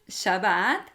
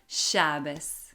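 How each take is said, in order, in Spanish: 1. La palabra termina con un sonido t. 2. La palabra termina con un sonido s. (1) "el sefaradí llama al séptimo día Shabbat"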